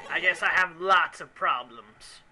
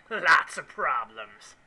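First: Said in the usual way. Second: Lots of problems dragged out slowly, lots leaned on; slow emphasis. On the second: Acted. Player echoing his own confession, slow and emphatic. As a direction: drawl Lots of problems like a rueful echo. Repeats phrase more slowly.

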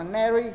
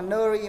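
First: "nary" said as neh-ree; American NE-RI ending. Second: "nary" said as nuh-ree; wrong NƠ-RI ending. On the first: Shown as a demonstration. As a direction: give "nary" an open "e" vowel. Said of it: "mà đọc là nary". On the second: Retold or imitated. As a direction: give "nary" a dull schwa, "nơ-ri". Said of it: "nó không đọc là nary".

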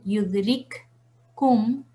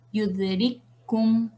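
First: Yudrikkum partido en yudrik y kum; letras separadas. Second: Yudrikkum con k doble retenida; retén la k de yudrikkum y suelta kum; letras unidas. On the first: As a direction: suelta la primera k de yudrikkum, pausa, luego kum. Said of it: "en vez de decir yudrikkum". (yudrikkum con las dos k separadas) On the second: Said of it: "vamos a decir yudrikkum". (yudrikkum saltando directo a la k reforzada) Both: Shown as a demonstration.

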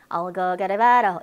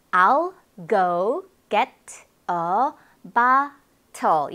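First: "I'll go get a bottle" run together, both Ts tapped; connected flapped speech. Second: Very slow "I'll go get a bottle", pause after each word. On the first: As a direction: blur "get a bottle" into "gera baro". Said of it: "이러는데 이게 뭘까?". (I'll go get a bottle을 연음으로 굴려서) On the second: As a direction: separate every word, both Ts clearly released. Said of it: "이렇게 되었겠죠?". (I'll go get a bottle을 한 단어씩 천천히 또박또박) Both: Shown as a demonstration.

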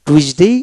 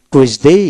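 First: Slow, deliberate টুইসডে with a shorter ending; teacher's slow model of টুইসডে, short last syllable; first of two pronunciations. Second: Slow টুইসডে with the last vowel drawn out to "ey"; teacher's slow model of টুইসডে, long final "dey"; second of two pronunciations. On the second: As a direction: stretch the end of টুইসডে. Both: Shown as a demonstration. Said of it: "double উচ্চারণ দেওয়া হলো".

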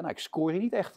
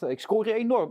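First: Said in the usual way. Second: "enorm" hit much higher and louder; stress on enorm. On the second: Retold or imitated. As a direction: punch the word "enorm" up high. (nadruk op "enorm", hoog en luid uitgesproken)

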